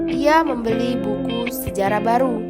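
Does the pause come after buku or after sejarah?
after buku. A pause comes after buku. The history is what is new. "Pada kalimat satu, yang baru adalah sejarahnya"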